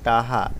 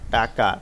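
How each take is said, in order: First: The middle consonant is said as an h sound. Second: The middle consonant is said as a k sound. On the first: The speaker calls it wrong. "যেই শব্দটি প্রমিত হয়নি" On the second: The speaker calls it right. "প্রমিত রূপ"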